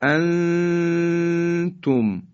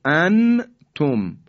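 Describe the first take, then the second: First: انتم with the n hidden in a long, steady nasal hum; ikhfa. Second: انتم with a clear, unheld n, loud and high; no long hum in انتم, just a plainly sounded n; izhar, wrong reading. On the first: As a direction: stretch the first syllable of انتم high and very slow, then drop onto تم. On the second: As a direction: articulate the n of انتم fully, then a separate تم. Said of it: "این اظهاره". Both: Shown as a demonstration.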